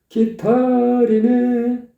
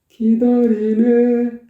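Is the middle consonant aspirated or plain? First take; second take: aspirated; plain. First: The middle consonant is a breathy, aspirated t. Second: The middle consonant is a soft, plain d. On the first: The speaker calls it wrong. "기다리네가 안 되고, 기타리네, 기타리네, 이렇게 되죠" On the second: The speaker calls it right. "이래야 되는데"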